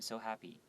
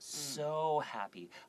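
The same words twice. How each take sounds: First: The word 'so' is said short and plain. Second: The word 'so' is stretched out long. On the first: The feeling does not come across. The speaker calls it wrong. "If I just said" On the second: The happiness is strongly emphasized. The speaker calls it right. "you can make it longer"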